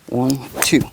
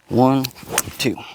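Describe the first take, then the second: First: The count is said at a quicker pace. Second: The count is said at a slower pace.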